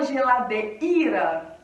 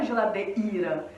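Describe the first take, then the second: First: Geladeira with the i as a separate full vowel, de-i; strong i. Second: Geladeira, softer, ei as one gliding sound. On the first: Teacher demoing the wrong strong-i geladeira. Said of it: "Não, a gente fala geladeira". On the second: Teacher giving the natural geladeira. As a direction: say geladeira with a light glided i. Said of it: "a gente fala geladeira". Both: Shown as a demonstration.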